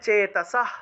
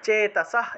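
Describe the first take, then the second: Both takes have the same delivery.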